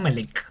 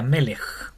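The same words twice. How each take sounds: First: The word ends in a hard k sound. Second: The word ends in a raspy ch sound. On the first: The speaker calls it wrong. "Como no como K, no Melech" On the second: The speaker calls it right. "Sería Melech"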